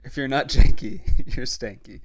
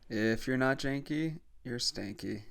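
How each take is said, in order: First: It is said loudly with lots of energy. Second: It is said quietly with little energy.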